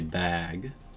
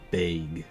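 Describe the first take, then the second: First: The word is said with an American vowel. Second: The word is said with a Canadian vowel. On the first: "In American English you would say bag" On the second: "In Canadian English you say bag"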